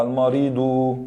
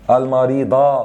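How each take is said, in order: First: المريض slow, ending in a long "-du"; nominative ending demo. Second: المريضة slow, ending in a long "-da"; accusative ending demo. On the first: Teacher showing the damma, slow المريض ending "-du". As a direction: stretch a final "u" onto المريض. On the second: Teacher changing the case ending, slow المريضة ending "-da". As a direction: stretch the final "a" of المريضة. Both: Shown as a demonstration. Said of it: "بالضمة".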